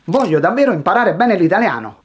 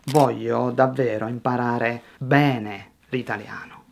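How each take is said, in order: First: Rushed, louder and higher; nervous learner racing through the sentence; too fast. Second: Lower, measured, with bene drawn out; slow down to highlight BENE; unhurried, giving the key words room. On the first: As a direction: rattle it off with no word standing out. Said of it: "nerves make you speak too fast". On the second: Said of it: "slow down just at the key word". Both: Shown as a demonstration.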